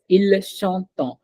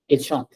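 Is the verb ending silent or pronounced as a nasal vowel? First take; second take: nasal; silent. First: The verb ending has a nasal vowel. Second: The verb ending is silent. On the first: The speaker calls it wrong. "We don't say it as il chantant" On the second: The speaker calls it right. "there is no difference at all"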